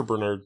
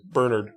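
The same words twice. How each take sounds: First: "Bernard" said as ber-NARD; second-syllable stress. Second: "Bernard" said as BER-nerd; first-syllable stress. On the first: Cheering on the friend, "Bernard" said ber-NARD. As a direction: say "Bernard" with a full "ard" ending. Corrects the name's pronunciation. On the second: Correcting the friend's name, "Bernard" said BER-nerd. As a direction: say "Bernard" with a reduced "nerd" ending. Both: Real, not acted.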